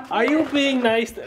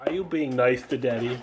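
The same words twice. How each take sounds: First: The question breaks up into real laughter; laughing. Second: Said in the usual way. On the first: Real, not acted. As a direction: start the line and lose it to a laugh. Dad breaks into laughter mid-question.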